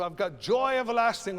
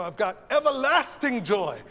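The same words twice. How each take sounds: First: "joy" lifted as the peak, "everlasting" falling after; stress on JOY. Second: "everlasting" punched loud before "joy"; stress on EVERLASTING. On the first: Choir director showing one reading, stress on "joy". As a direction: put the weight on "joy". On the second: Choir director showing the other reading, loud "everlasting". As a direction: put the weight on "everlasting". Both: Shown as a demonstration. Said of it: "everlasting can work a couple of different ways".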